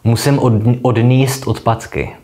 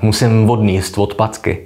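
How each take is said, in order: First: The words begin without an added v sound. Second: The words begin with an added v sound.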